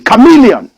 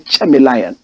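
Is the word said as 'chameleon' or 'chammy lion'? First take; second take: chameleon; chammy lion. First: It is said as one word, chameleon. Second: It is said like two words, chammy lion. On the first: The speaker calls it right. "Excuse me" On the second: The speaker calls it wrong. "watch me style"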